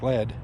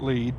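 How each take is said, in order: First: The vowel is short, as in 'bed'. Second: The vowel is long, as in 'seed'. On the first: It is the ordinary word spelled the same way. "spelled L E A D like lead" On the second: It is the local name of the town. "they pronounce it Lead"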